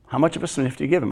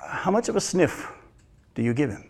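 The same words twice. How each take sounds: First: Faster, softer repeat of "How much of a sniff do you give him?"; pressing follow-up, hurried and soft; quick repeat. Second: Soft, pointed ask of "how much of a sniff do you give him?"; a near-whispered challenge, leaning in; hushed question. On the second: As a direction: let the question drop down quiet and searching. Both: Shown as a demonstration.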